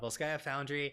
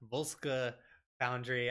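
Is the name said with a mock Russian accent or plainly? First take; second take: plain; mock Russian. First: The name is said in a plain English way. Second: The name is said with an exaggerated Russian accent.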